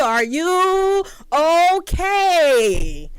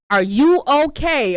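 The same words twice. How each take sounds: First: Mouthed through the window. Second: Concerned stranger. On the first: He doing all this on my window. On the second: Stranger knocks at car window. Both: Retold or imitated.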